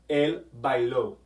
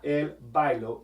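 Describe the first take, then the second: First: The stress falls on the last syllable. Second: The stress falls on the first syllable. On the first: The speaker calls it right. "it has an accent, and you say it él bailó" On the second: The speaker calls it wrong. "not él bailó"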